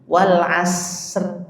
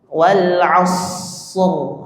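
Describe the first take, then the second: First: A plain s with a thin r. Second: An emphatic s with a heavy r. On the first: The speaker calls it wrong. "orang yang bacanya pakai sin" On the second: The speaker calls it right. "harusnya shad"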